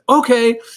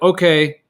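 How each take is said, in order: First: Okay is said in a marked, expressive tone. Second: Okay is said flatly, with no special tone. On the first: The dog responds to it. The speaker calls it right. "in the tone of voice like okay" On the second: The dog ignores it. The speaker calls it wrong. "if they just say like okay"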